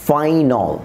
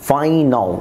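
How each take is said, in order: The two takes are said the same way.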